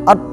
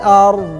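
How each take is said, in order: First: The final consonant stops abruptly. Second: The final consonant is slightly drawn out. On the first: The speaker calls it wrong. "jadi bukan stop kayak huruf yang jahar, seperti huruf yang syiddah" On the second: The speaker calls it right. "agak agak sedikit memanjang"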